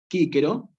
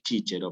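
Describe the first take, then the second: First: Both c's sound like a hard k. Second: Both c's sound like ch. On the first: It is the classical Latin pronunciation. "o bien Quíquero" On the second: It is the church Latin pronunciation. "en latín eclesiástico, va a tener otra pronunciación que es chíchero"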